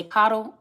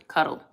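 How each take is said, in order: First: "coddle" with an open ah in the first syllable. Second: "cuddle" with a short uh in the first syllable. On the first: Asking a viewer which word was meant, "coddle" said KAH-dul. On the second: Asking a viewer which word was meant, "cuddle" said KUH-dul. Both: Shown as a demonstration. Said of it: "Are you trying to say coddle or cuddle".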